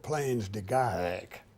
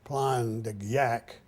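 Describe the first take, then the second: First: The name is given an American-style pronunciation. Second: The name is given a French-style pronunciation. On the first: "we called it ... that's American" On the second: "I don't know how to pronounce it in French. It's"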